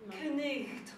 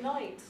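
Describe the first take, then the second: First: It has extra consonant sounds, including a throaty one. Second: It is said plainly, with no extra consonants. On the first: This is how it was said centuries ago. "in Old English, it was probably pronounced knight" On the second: This is how it is said today. "now we just pronounce it night"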